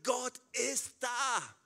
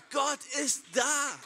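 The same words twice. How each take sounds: First: Sung, getragen gesungenes „Gott ist da“. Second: Lauter, hoher, langsamer Ruf „Gott ist da“; Predigerruf. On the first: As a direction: sing es langsam und feierlich. Predigt, gesungener Ausruf mit Musik. (sung, langsam gesungener Ausruf) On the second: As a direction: ruf es der ganzen Gemeinde mit voller Kraft zu. Prediger ruft es der Gemeinde zu. (lauter, kraftvoller Predigerruf) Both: Acted.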